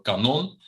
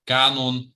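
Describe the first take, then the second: First: Kanon stressed on the second syllable, ka-NON, with a rise. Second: Kanon stressed on the first syllable, KA-non, higher and louder. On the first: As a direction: say kanon as ka-NON, first syllable weak and last strong. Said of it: "which is shooting cannon". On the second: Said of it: "so, uh, singing canon". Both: Shown as a demonstration.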